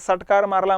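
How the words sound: The first word begins with an s sound. "ते सटकार मारला म्हणतील"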